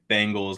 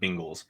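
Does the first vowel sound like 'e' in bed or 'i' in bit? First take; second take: e sound; i sound. First: The first vowel sounds like the e in bed. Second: The first vowel sounds like the i in bit. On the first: The speaker calls it right. "B E" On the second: The speaker calls it wrong. "not B I"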